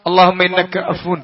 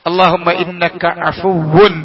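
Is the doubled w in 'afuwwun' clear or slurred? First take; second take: slurred; clear. First: The doubled w is slurred into a long vowel. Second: The doubled w is pronounced clearly and fully. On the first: The speaker calls it wrong. "സാധാരണ ... വ്യത്യാസം ഒന്നും ഉണ്ടാവില്ല" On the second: The speaker calls it right. "പിന്നെ വാവിന് ശദ്ദ, അതിട്ടിട്ടാണ് അഫുവ്വുൻ"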